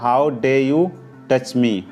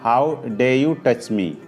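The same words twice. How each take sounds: First: The r at the end of dare is silent. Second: The same.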